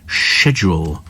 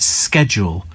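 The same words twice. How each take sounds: First: It is said with a British pronunciation. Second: It is said with an American pronunciation.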